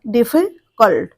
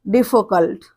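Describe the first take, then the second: First: "difficult" drawn out, last syllable set apart. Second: Said in the usual way. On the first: Shown as a demonstration. Teacher showing "difficult" has three syllables, slowly split. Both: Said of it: "तीन syllable का है".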